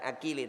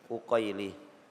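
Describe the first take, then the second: First: The first vowel is an open 'a' sound. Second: The first vowel is a rounded 'u' sound. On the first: The speaker calls it wrong. "Bukan akili" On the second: The speaker calls it right. "tapi uqaili"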